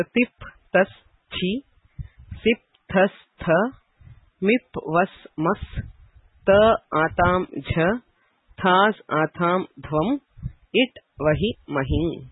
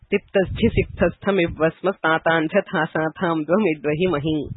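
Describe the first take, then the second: First: "tip, tas, chi" through "it, vahi, mahi" split one by one, with clear pauses; separated list items. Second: "Tiptasthi sikthastham ivvasmas tatanchat hasatham dvam idvahi mahing" run together as one unbroken string; joined-up recitation. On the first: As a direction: read out "tip, tas, chi, sip, thas, tha" and the rest as separate items, pausing between groups. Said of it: "just a list of pratyayas". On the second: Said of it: "write it in the joint form". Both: Shown as a demonstration.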